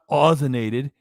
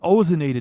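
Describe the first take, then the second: First: The first syllable sounds like 'Oz'. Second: The first syllable sounds like 'oh'. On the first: The speaker calls it wrong. "not ozonated. So she fucks around with the pronunciation, says a singer's name" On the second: The speaker calls it right. "it's ozonated"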